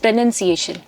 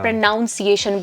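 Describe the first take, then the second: First: The second syllable sounds like 'nun'. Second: The second syllable sounds like 'nounce'. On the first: The speaker calls it right. "It's" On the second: The speaker calls it wrong. "वो बहुत गलत होता है"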